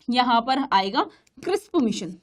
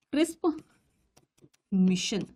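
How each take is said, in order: First: Said in the usual way. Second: "crisp" and "mission" said apart with a pause; slow separated. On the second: Shown as a demonstration. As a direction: repeat "crisp mission" slowly, word by word. (नाम को धीरे धीरे दोहराना)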